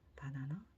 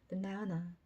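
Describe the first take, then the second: First: All three syllables are said evenly with little effort. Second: The middle syllable is stressed; outer vowels become schwa. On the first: "우리는 배에 힘도 안 주고 어, 혀끝이 이동하는 거리도 짧으니까 하나도 힘 안 들이고 바나나 할 수 있어요" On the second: "가운데만 혀끝을 붙이고 앞뒤로 있는 모음 두 개는 어, 슈아 사운드 처리하죠"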